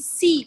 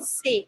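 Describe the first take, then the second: First: The letter is said with an English vowel. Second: The letter is said with a French vowel. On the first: The speaker calls it wrong. "You don't see C" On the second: The speaker calls it right. "you say say"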